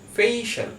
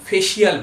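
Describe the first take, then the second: First: The middle sounds like a single 'sh'. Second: The middle sounds like 's' followed by 'ee'. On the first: The speaker calls it right. "Correct pronunciation হলো ফেইশাল" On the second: The speaker calls it wrong. "আমরা সব উচ্চারণ করে কি ফেসিয়াল বলে"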